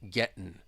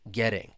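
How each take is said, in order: First: The T is a glottal stop; the ending is -in. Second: The T is a quick flap; the ending is -ing. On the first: "it's almost like you're swallowing it" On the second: "that T comes between two vowel sounds, and you hear that flap T"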